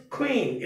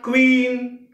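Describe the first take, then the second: First: "queen" with a breathed k gliding into w; correct pronunciation. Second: "queen" with a hard k and no breath, long vowel; wrong pronunciation. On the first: Teacher models the right word, correct pronunciation. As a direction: say "queen" as k-ween. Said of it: "The word is queen". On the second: Teacher shows the wrong way, mispronounced word. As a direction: say "queen" with an unaspirated k, drawn out. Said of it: "It's not queen". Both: Shown as a demonstration.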